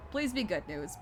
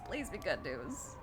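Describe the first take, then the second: First: Said in the usual way. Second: Softer, slower hopeful plea; quiet plea. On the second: Real, not acted. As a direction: murmur it like a prayer.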